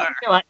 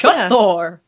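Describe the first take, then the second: First: It is said in a normal voice. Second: It is said in a put-on horse voice.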